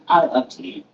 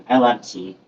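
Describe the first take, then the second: First: A light Anchorman-style declaration of I love tea; deadpan Anchorman line, lightly done; Anchorman moment. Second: Said in the usual way. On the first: Pretend. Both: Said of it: "Definitely have a little Anchorman moment there".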